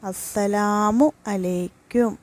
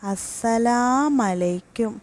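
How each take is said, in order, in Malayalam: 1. ആശംസയിലെ എല്ലാ അക്ഷരങ്ങളും ഉച്ചരിക്കുന്നു. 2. salamu-വിലെ അവസാന u ഒഴിവാക്കുന്നു. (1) "സലാം പറയേണ്ട ശരിയായ രീതി" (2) "അതിൽ ആദ്യത്തേത് അസ്സലാമലൈക്കും"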